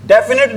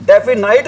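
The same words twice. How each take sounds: First: डेफिनेट with a short final "net"; correct pronunciation of definite. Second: डेफिनाइट ending like "night"; wrong pronunciation of definite. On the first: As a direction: say डेफिनेट with no "night" sound at the end. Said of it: "क्या बोलते हैं भी". (डेफिनेट, अंत में छोटा "नेट" वाला सही उच्चारण) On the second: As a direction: stretch the ending of डेफिनाइट into a long "ai" sound. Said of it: "इसको क्या नहीं बोलते भी". (डेफिनाइट, अंत में "नाइट" वाला गलत उच्चारण) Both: Shown as a demonstration.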